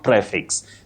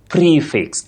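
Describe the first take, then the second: First: The first vowel is a short e sound. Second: The first vowel is a long ee sound. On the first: The speaker calls it wrong. "It's not prefix" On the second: The speaker calls it right. "That E takes the long sound E"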